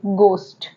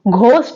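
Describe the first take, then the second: First: The first sound is a plain g. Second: The first sound is an aspirated g. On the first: The speaker calls it right. "एच silent होगा तो हम यहां पे पढ़ेंगे इसे गोस्ट" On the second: The speaker calls it wrong. "हम इसे घोस्ट नहीं पढ़ेंगे"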